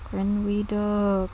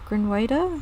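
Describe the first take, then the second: First: Grinweda said slowly with "wee" in the middle; alternative pronunciation. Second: Grinweda with "way" in the middle, questioning; alternative pronunciation. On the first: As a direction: sound out Grinweda as grin-WEE-doh. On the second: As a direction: try Grinweda as grin-WAY-duh, unsure. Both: Shown as a demonstration. Trying out a name's pronunciation.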